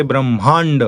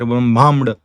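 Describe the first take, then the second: First: Brahmand with curled-tongue n before d; Brahmand, n instead of m; correct retroflex anuswara. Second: Brahmamd with m before d; Brahmamd, m replacing n; wrong labial nasal. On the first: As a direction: hold the n in Brahmand. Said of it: "No, we say". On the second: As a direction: say Brahmamd with lips shut before d. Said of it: "We don't say Ma there". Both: Shown as a demonstration.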